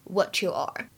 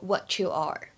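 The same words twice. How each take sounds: First: The t and y blend into a ch sound. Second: The same.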